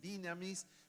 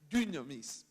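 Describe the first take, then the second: First: The first vowel is a plain i sound. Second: The first vowel is a rounded French u. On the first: The speaker calls it wrong. "ni dinamis" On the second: The speaker calls it right. "es la U francesa"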